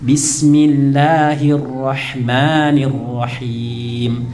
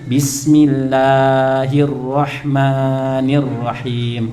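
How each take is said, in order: First: Bismillahirrahmanirrahim slow and measured, long vowels held just two beats; careful model recitation of Bismillahirrahmanirrahim; correct madd. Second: Bismillahirrahmanirrahim with long vowels stretched far beyond two beats; mock-wrong sing-song bismillahirrahmanirrahim; overlong madd. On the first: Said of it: "Mat tobi itu dua harokat". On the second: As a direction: drag out the madd in bismillahirrahmanirrahim like a TPA child. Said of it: "Jadi kadar jangan kepanjangan". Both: Shown as a demonstration.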